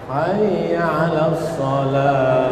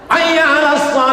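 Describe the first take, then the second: First: It is said softly and gently. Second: It is said loudly and forcefully.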